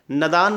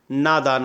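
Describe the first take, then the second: First: नदान with a short first vowel; wrong pronunciation. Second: नादान with a long first aa; correct pronunciation. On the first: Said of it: "नदान नहीं होता है". (नदान में छोटा अ, गलत उच्चारण) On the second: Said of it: "नादान होता है". (नादान में लंबा आ, सही उच्चारण) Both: Shown as a demonstration.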